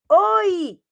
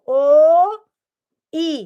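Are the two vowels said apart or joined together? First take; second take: joined; apart. First: The two vowels are joined into one syllable. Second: The two vowels are said apart with a pause. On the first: "bem juntinho" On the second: "estava separado"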